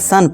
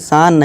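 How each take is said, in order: First: The vowel is a short uh sound. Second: The vowel is a long open aa sound. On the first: The speaker calls it right. "इसे सन पढ़ेंगे" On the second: The speaker calls it wrong. "सान नहीं"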